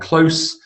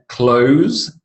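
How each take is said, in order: First: The word ends with an s sound. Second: The word ends with a z sound. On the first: It is the adjective. "close with a s sound is the adjective" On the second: It is the verb. "close with a z sound, the verb"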